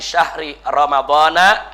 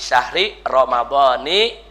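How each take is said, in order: First: Ramadhan ends with an 'a' vowel. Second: Ramadhan ends with an 'i' vowel. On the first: The speaker calls it wrong. "Ada yang baca" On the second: The speaker calls it right. "Ada juga yang baca"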